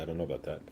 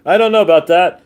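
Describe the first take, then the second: First: Muttered doubt, much softer; quietly, half to himself; low doubtful aside. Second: Louder and higher, openly doubtful; emphatic doubtful repeat. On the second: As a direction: say it out loud, skeptical. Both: Shown as a demonstration.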